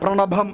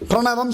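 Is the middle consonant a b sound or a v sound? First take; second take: b sound; v sound. First: The word is said with a b sound. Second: The word is said with a v sound. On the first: "பிரணபம் அப்படின்வா" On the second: "பிரணவம் சொல்ல மாட்டா"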